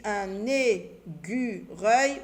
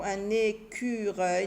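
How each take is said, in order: First: ÉCUREUIL said "é-gu-reuil", syllable by syllable; wrong g sound. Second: ÉCUREUIL said "é-cu-reuil" with a k, slowly; correct k sound. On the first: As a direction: say "écureuil" slowly with g for the c. (« écureuil » prononcé « é-gu-reuil », lentement) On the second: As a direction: say "écureuil" syllable by syllable, clear k. (« écureuil » lentement, avec le son k) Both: Shown as a demonstration. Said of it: "l'écureuil Tilly avec C".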